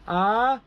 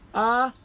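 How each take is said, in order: First: The pitch goes from low to high. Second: The pitch is held high and level. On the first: "rising tone" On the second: "high tone"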